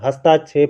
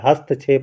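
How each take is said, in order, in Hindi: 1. 'hast' के बाद दीर्घ 'aa' स्वर आता है। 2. 'hast' के बाद ह्रस्व स्वर आता है। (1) "हस्ताक्षेप गलत होता है" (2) "शुद्ध होता है"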